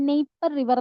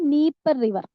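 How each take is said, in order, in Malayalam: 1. ആദ്യ സ്വരാക്ഷരം 'ay' പോലെയാണ് ഉച്ചരിക്കുന്നത്. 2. ആദ്യ സ്വരാക്ഷരം 'ee' പോലെയാണ് ഉച്ചരിക്കുന്നത്. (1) "നീപ്പർ റിവർ അല്ലെങ്കിൽ നെയ്പ്പർ റിവർ എന്നൊക്കെ വായിക്കാം" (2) "നീപ്പർ റിവർ അല്ലെങ്കിൽ നെയ്പ്പർ റിവർ എന്നൊക്കെ വായിക്കാം"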